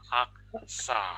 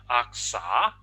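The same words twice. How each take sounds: First: The pitch falls through the word. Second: The pitch rises through the word. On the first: It means chicken wing. "If the sound goes down" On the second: It means chicken meat. "if the sound goes up"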